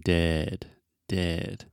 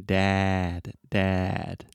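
First: Dead with a relaxed, centred e. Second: Dad with a wide open a. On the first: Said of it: "relax your lips". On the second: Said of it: "really opening your mouth and saying". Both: Shown as a demonstration.

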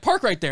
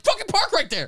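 First: Firm, slightly raised instruction to the driver; retold impatient direction, still contained; insistent order. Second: High, strained, furious insistence; exasperated mock yell. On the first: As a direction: tell him where to park, mildly pushy. Retold parking argument, first take. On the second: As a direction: re-enact losing patience with the driver. Retold parking argument escalates.

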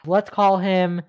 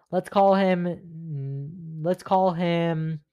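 First: Said in the usual way. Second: Stretched-out let's call him while thinking; stalling slowly. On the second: Real, not acted. Stalling to pick a fake name, slow drawn-out thinking. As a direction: drag it out while searching for a name. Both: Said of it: "what's a good name for this guy".

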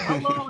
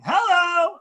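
First: Laughing hello. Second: Big high shouted hello; catchphrase call. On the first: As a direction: toss it off with a chuckle. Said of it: "I mean". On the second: Announcer asked for his catchphrase, shouts it full out. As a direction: belt it like a courtside call. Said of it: "So I would probably say". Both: Shown as a demonstration.

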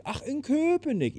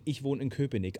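First: Hohes, langsames, überraschtes „Köpenick“. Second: Said in the usual way. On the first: Retold or imitated. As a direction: staun über „Köpenick“, hoch und langsam. Sängerin überrascht. (Sängerin hört überrascht, dass er in Köpenick wohnt)

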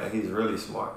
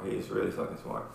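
First: Said in the usual way. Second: Whispered aside. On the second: Real, not acted. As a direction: whisper "He's really fucking smart" low and breathless. Repeats praise, second time hushed.

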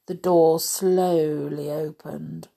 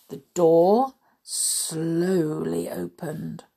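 First: Said in the usual way. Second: "slowly" stretched long; slow suspense, lingering on "slowly"; drawn out. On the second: A narrator's reading. Narrator draws out a slow action.

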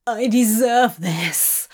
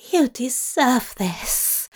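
First: Emotional cry, a little louder; cried out. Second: Slow, effortful grunt. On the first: Demon accepting his worth, crying out. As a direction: cry it out with conviction. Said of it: "he cried". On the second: Angel affirming his lover, grunted with effort. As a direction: grunt the words out slowly. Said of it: "Zira grunted". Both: A narrator's reading.

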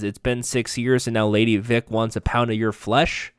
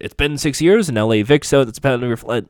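First: Said in the usual way. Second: Put-on quick, louder line in a slipped American accent; mock the actor dropping into his American accent; imitating American accent slip. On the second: Recapper mocking Jason's American accent slipping through. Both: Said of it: "back in his normal accent".

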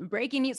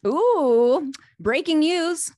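First: Laughing repeat. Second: Excited breaking news. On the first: Host repeats announcement, laughing. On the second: Host reacts to product announcement. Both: Real, not acted.

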